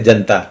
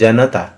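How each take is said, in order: First: Said fast with the middle vowel dropped. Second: Said at normal speed with every vowel pronounced. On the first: "द्रुत गति से" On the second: "जब हम लोग सामान्य गति से उच्चारण करते हैं तब तो हम लोग बोलते हैं"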